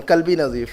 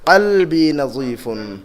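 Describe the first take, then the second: First: قلبی نظیف said loosely the Urdu way, k-like first sound; casual Urdu-accented قلبی نظیف, the wrong way; Urdu-style pronunciation. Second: قلبی نظیفن drawn out syllable by syllable with a throaty q; correct Arabic pronunciation. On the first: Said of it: "ہم اردو کے style میں". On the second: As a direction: spell out قلبی نظیفن carefully in proper Arabic. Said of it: "تلفظ صحیح کرنا ہوگا". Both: Shown as a demonstration.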